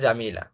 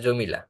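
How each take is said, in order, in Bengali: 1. প্রথম স্বরধ্বনিটি একটি দীর্ঘ খোলা 'aa'। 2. প্রথম স্বরধ্বনিটি একটি গোলাকার 'o' ধ্বনি। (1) "ওইটাই বাংলাতে জামিলা" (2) "একবারে বাঙালিয়ানা করে সেটাকে আমরা বলি জমিলা"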